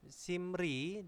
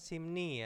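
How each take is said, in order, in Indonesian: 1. Suku kata kedua diawali bunyi R. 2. Suku kata kedua diawali bunyi N. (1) "ini simri" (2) "dibacanya simni"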